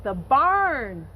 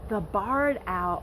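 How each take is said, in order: First: Barn said louder with a falling correction; stress on barn. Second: Said in the usual way. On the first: Real, not acted. Teacher fixing a slip for the kids, leaning on barn. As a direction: correct herself by hitting the word barn. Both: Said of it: "I'm sorry, I confused myself".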